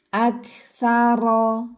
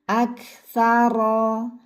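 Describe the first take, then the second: The two takes are said the same way.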